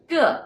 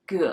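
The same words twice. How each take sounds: First: The pitch falls from high to low. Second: The pitch dips low, then rises again. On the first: It means every. "The fourth one, ge, is every" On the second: It means boat. "The third one, ge, is boat"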